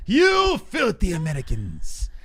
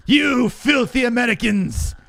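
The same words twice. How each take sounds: First: Slow, higher put-on troll sneer; mock troll voice. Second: Hammed-up troll, higher, slow and drawn out; mock troll shout. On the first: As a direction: drag out "filthy Americans" like a hater. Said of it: "People like". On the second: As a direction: sneer it like the angry commenter. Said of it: "mocking the commenters".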